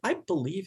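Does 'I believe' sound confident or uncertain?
uncertain. It is said hesitantly and with doubt. The speaker is not sure it is true. The speaker calls it wrong. "That's an expression of uncertainty"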